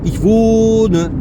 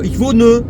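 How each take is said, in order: First: The o vowel is drawn out long. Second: The o vowel is clipped short. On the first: The speaker calls it right. "C'est long, j'exagère un petit peu exprès" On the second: The speaker calls it wrong. "trop courtes lorsqu'elles sont longues"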